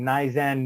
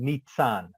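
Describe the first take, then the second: First: The middle consonant is a plain z sound. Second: The middle consonant is a ts sound. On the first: This is how other people mispronounce it. The speaker calls it wrong. "having people try to pronounce my name" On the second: This is how the name is meant to sound. The speaker calls it right. "So I put the T in there for pronunciation"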